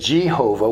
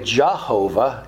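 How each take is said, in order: First: The first vowel sounds like 'eh'. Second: The first vowel sounds like 'ah'. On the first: "we say Jehovah with an E" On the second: "it's really Jehovah, J-A"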